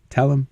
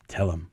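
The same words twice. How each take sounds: First: A higher, more pressing nudge; insistent prodding. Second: A soft low nudge, said under the breath; wife-like hushed coaxing to speak up; quiet prodding. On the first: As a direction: push him to speak, a bit more urgent. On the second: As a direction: urge him on quietly, close by. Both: Retold or imitated. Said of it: "she's prodding me".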